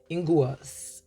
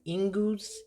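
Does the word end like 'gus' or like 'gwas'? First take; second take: gwas; gus. First: The ending sounds like 'gwas' with a w. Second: The ending sounds like 'gus' with no w. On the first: The speaker calls it right. "I just thought it was Ingus" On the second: The speaker calls it wrong. "am I pronouncing this right?"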